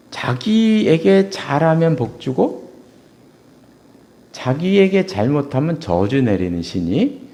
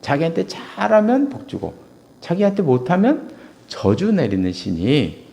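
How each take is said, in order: First: Each word laid out slowly; slow emphasis. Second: Said in the usual way. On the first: Shown as a demonstration. Preacher defining the ancestor god to the congregation, slowly. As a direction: spell it out slowly for them. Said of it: "조상신은 이런, 이런 신이에요". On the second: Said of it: "조상신은 그런 신이에요".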